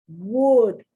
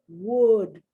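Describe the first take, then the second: Both takes have the same delivery.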